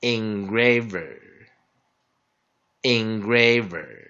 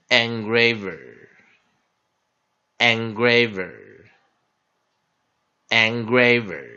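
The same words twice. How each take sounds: First: "Engraver" started with a short "in" sound, said twice; alternate pronunciation. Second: "Engraver" said three times, first syllable "an" as in "ant", slow and falling; "Engraver" with an open "an" start, clearly spaced repeats; slow pronunciation drill. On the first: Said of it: "also pronounced as engraver". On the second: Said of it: "It's also pre-, pronounced as engraver". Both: Shown as a demonstration.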